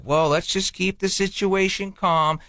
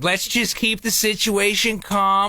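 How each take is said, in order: First: Slow, measured peacekeeping voice; smooth it over slowly and evenly; mock calming. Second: Slow, higher, insistently soothing; calming retold. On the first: Husband calming his wife after her fight, soothing. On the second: Husband defending what he told his wife, placating. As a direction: spell out the soothing words slowly.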